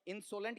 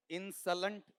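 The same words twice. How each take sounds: First: इंसोलेंट said as in-SO-lunt; round, full 'o' in the middle of इंसोलेंट; full O vowel. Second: इंसोलेंट said as IN-suh-lunt; weak, short 'uh' in the middle of इंसोलेंट; short middle vowel. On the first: Teacher offering the class the other pronunciation, इंसोलेंट as in-SO-lunt. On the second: Teacher asking the class which pronunciation, इंसोलेंट as IN-suh-lunt. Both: Shown as a demonstration. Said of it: "इसका उच्चारण क्या किया".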